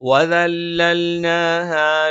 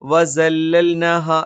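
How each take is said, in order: First: The second consonant is a soft 'th' sound. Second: The second consonant is a hissing 's' sound. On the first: The speaker calls it right. "ദ എന്ന് നാവിന്റെ അറ്റം മേലെ മുൻപല്ലിന്റെ താഴ്ഭാഗത്ത് തന്നെ വെച്ചുകൊണ്ട് ഉച്ചരിക്കണം" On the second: The speaker calls it wrong. "അത് തെറ്റാണ്"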